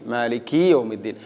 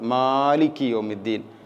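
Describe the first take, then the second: First: The k sound is stretched out long. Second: The m sound is stretched out long. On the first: "മറ്റൊരു അബദ്ധമാണ് ഇങ്ങനെ കാഫിനെ കുറച്ച് കൂടുതൽ നീട്ടിക്കൊണ്ട്" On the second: "മീമിനെ രണ്ട് ഹർക്കത്തിനേക്കാൾ കൂടുതലായിട്ട് ഓതുന്ന ചില ആളുകളുണ്ട്"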